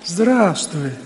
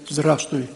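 First: The greeting sounds warm and attentive. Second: The greeting sounds cold and offhand. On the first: The speaker shows attention and affection to the person greeted. The speaker calls it right. "здесь было больше внимания. Может быть, и любовь" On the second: The speaker pays little attention to the person greeted. The speaker calls it wrong. "А первое не понравилось"

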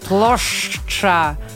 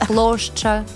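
First: It is said with a tightly clenched jaw. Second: It is said softly with a relaxed jaw. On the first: This imitates someone mocking the language. The speaker calls it wrong. "прям вот очень зажимает это свое челюсть" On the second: This is how the language really sounds. The speaker calls it right. "все очень мягко"

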